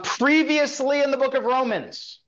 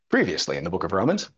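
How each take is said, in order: First: It is said in an ordinary speaking voice. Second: It is said in a dramatic announcer voice.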